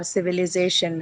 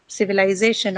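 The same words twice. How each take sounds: First: "civilization" with the third syllable said as short "li"; "civilization" with a short i sound before the "za"; short-i variant. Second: "civilization" with the third syllable said like "lie"; "civilization" with an eye sound before the "za"; long-i variant. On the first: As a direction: say "civilization" as si-vi-li-ZAY-shun. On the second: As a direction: say "civilization" as si-vi-LIE-ZAY-shun. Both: Shown as a demonstration. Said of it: "has various pronunciations".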